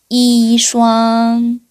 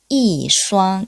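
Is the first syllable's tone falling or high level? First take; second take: high level; falling. First: The first syllable has a high level tone. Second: The first syllable has a falling tone. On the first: The speaker calls it wrong. "이슈앙 이렇게 읽으면 안 되죠" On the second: The speaker calls it right. "이의 성조가 뒤에 일성일 때는 사성으로 바뀐다"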